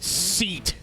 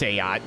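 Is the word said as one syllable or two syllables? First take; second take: one syllable; two syllables. First: It is said as one syllable, like 'seat'. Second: It is said as two syllables, 'say-at'. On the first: The speaker calls it wrong. "I know that's not how you pronounce it" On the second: The speaker calls it right. "I know it's Sayat"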